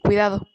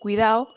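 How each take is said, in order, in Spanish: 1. La d de la terminación se pronuncia. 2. La d de la terminación se omite. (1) "en lugar de" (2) "La pérdida de la letra D en la terminación ado"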